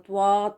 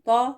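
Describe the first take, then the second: First: The t is followed by a w glide. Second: The t is followed directly by the vowel. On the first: The speaker calls it wrong. "वाव के साथ पढ़ना त्वा, तो ये गलत है" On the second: The speaker calls it right. "तो फिर इसका सही प्रोनंसिएशन क्या है?"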